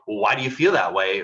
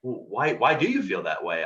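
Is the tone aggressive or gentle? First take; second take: aggressive; gentle. First: It is asked in an aggressive tone. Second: It is asked in a gentle tone.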